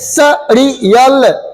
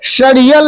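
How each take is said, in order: First: The word begins with an s sound. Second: The word begins with an sh sound. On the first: The speaker calls it right. "ऐसे सड़ियल" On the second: The speaker calls it wrong. "शड़ियल नहीं"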